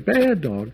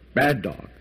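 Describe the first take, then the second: First: It is said in a sweet, playful tone. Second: It is said in a harsh, scolding tone. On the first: The dog is being praised affectionately. "and his tail will thump, and he'll be happy and excited" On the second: The dog is being scolded. "and the dog will cower"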